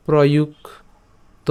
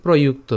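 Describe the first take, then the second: First: প্রযুক্ত split as "proyuk", pause, "to"; broken into parts. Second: Said in the usual way. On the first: Shown as a demonstration. Teacher breaks up the word for learners, প্রযুক্ত in two separated parts. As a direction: stretch প্রযুক্ত and break it before the final "to". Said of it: "এই জায়গাটাকে এত না ভাঙিয়ে". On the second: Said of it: "না ভাঙিয়ে এভাবেও লিখতে পারি".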